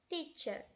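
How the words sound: A British accent, ending in a soft vowel. "no inglês britânico a gente tem teacher"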